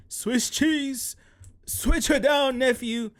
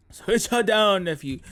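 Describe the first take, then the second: First: Quoted catchphrase voice. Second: Said in the usual way. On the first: Retold or imitated. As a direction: belt out the meme line. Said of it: "that reference". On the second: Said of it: "damn it".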